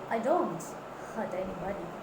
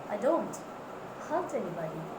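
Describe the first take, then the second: First: The word don't is clearly stressed. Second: The word don't is clearly stressed.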